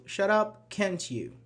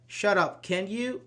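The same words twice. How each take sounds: First: UP held high, then CAN'T YOU falling; falling tag. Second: CAN YOU lifted high at the end; rising tag. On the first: Teacher contrasts tags for students, "can't you" falling. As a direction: drop the pitch through "can't you" as a demand. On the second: Teacher shows students the two tags, "can you" rising. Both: Shown as a demonstration. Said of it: "One with a high intonation, the other isn't".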